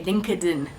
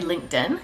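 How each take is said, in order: First: Linked is split into two syllables, link-ed. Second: Linked is said as one syllable. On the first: "They say LinkedIn. ... it's link ed in" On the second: "French people don't say LinkedIn"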